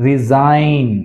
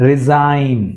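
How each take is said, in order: No difference in how they are said.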